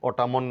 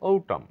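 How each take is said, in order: First: The final n is pronounced. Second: The final n is silent. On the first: The speaker calls it wrong. "অটামন নয়" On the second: The speaker calls it right.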